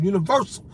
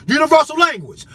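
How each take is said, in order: First: Said in the usual way. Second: Much higher and louder, hammering the word; shouted repeat. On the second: Real, not acted. Warning the government, shouting the repeat. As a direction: yell it out to the crowd.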